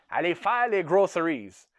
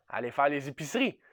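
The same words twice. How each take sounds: First: Groceries said the English way, as /ɡʀosriz/; the Ontario French way; franco-ontarian anglicism. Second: Said in the usual way. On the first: Shown as a demonstration.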